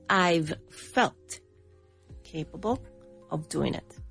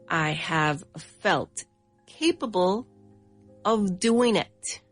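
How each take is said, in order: First: "I have" is shortened to one syllable. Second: "I have" is said as two full words. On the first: "we would say I've felt capable of doing it" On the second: "instead of saying I have"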